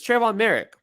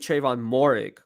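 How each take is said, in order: First: The surname is said like 'Merrick'. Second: The surname is said like 'Morig'. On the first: The speaker calls it right. "but it's Trayvon Merrick" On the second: The speaker calls it wrong. "I used to say Trayvon Morig"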